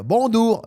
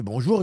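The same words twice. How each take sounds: First: BONJOUR as "bondour", high and loud; caricatured Chinese-accented "bonjour", the J turned to D; high-pitched put-on Chinese accent on "bonjour"; mock Chinese accent. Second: Said in the usual way. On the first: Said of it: "il dit ça, comme ça". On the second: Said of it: "quand il me dit bonjour".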